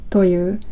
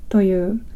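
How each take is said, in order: The two takes are said the same way.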